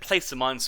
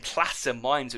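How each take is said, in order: First: The first syllable rhymes with 'race'. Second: The first syllable has a short 'a' sound. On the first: This is how it is said in England. "I said placer mines all my life" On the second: This may be how it is said in America. "if I just start saying plaster mines, it feels so weird"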